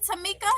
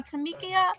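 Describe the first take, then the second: First: "Tamika" as tuh-MEE-kuh; higher, querying "Tamika" with "mee" in the middle; checking the pronunciation. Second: "Tamikia" as tuh-MEE-kee-uh; questioning "Tamikia", with the extra syllable heard; alternative pronunciation. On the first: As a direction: say "Tamika" in three syllables, questioning. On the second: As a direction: add a "kee-uh" ending to "Tamikia". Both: Shown as a demonstration. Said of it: "Am I saying it right?".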